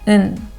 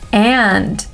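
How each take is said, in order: First: The word is cut to a short nasal sound. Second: The word is said fully with a clear vowel.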